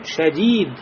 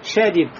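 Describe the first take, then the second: First: The second vowel is held long. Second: The second vowel is short. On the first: The speaker calls it right. "а говорим шадид" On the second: The speaker calls it wrong. "не говорим шадид"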